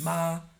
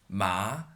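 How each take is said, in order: First: The syllable is said with the first tone. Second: The syllable is said with the second tone.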